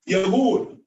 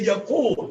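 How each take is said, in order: First: The middle consonant is a gargled, voiced 'gh'. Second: The middle consonant is a deep, unvoiced 'q'. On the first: The speaker calls it wrong. "So they pronounce the qaf, ghain" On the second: The speaker calls it right. "They want to say Yaqul"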